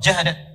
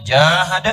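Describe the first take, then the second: First: The first vowel is kept short. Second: The first vowel is drawn out long. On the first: The striving is brief and only occasional. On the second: The striving is sustained and wide-reaching.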